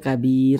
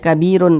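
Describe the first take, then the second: First: The word ends on a bare r sound. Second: The word ends with a vowel and n. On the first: The speaker calls it right. "tapi dibaca kabir" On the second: The speaker calls it wrong. "jangan dibaca kabirun"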